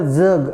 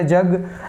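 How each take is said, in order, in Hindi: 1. यह शब्द गुंजन वाली z आवाज़ से शुरू होता है। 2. यह शब्द सादी j आवाज़ से शुरू होता है। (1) "उर्दू में बोला जग, ऐसे जोर लगा के बोला जाता है उसको" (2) "हमारे वाला जय होता है, ठीक है, जैसे जय जग"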